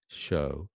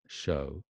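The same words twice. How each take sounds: First: The vowel is said with fairly rounded lips. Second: The vowel is said with less lip rounding. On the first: "Fairly round-ish" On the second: "Or show"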